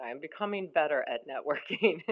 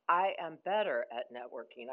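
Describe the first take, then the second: First: Becoming given extra weight, a little louder; stress on becoming. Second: Said in the usual way. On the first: Real, not acted. Correcting her own claim to the room, stress on becoming. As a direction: lean into becoming as the fix. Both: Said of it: "I hated to say that".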